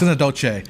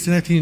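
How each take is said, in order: First: The word is pronounced with Spanish-style sounds. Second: The word is pronounced the usual English way. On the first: The speaker calls it wrong. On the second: The speaker calls it right.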